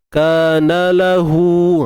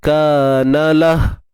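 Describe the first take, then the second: First: It ends on a vowel held two beats long. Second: It ends on a bare h with no vowel. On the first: The reciter continues into the next word. "Kalau sambung, kanalahu, ha, barulah ha, kita baca dengan mat dua harakat" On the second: The reciter stops at this word. "kalau berhenti"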